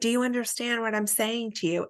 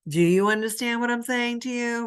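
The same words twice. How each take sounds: First: It is said in a sincere, neutral tone. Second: It is said in a condescending tone.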